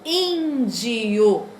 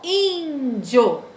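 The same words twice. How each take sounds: First: The ending is split into two separate syllables. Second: The ending is said as one joined syllable. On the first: The final vowels form a hiatus. "com hiato, separado" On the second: The final vowels form a diphthong. "como ditongo, junto"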